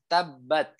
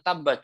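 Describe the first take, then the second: First: The final t is released with a puff of air. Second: The final t is cut off without any air. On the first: The speaker calls it right. "Padahal yang benar adalah tabat. Tuh. Ketika sukun ya keluarnya adalah ada aliran udara" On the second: The speaker calls it wrong. "bukan tabat"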